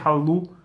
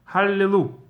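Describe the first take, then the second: First: It is said without the middle vowel. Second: It is said with the middle vowel. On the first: The speaker calls it wrong. "You don't say hallu" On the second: The speaker calls it right. "There's always a some kind of a vowel sound"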